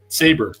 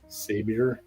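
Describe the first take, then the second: First: No extra vowel is heard after the b. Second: An extra 'ee' vowel is heard after the b. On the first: The speaker calls it right. "It's Saber" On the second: The speaker calls it wrong. "Is that how you say that?"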